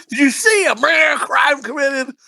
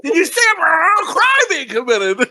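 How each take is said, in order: First: High, shouted movie-quote impression; blurred-out movie swearing. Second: Very high, hammed-up shouted movie quote; blurred-out movie swearing, exaggerated. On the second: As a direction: shriek the quote, garbling the swearing even more. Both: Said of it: "it keeps blurring it out".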